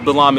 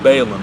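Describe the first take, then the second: First: The name is pronounced in its Hebrew form. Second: The name is pronounced in its English form.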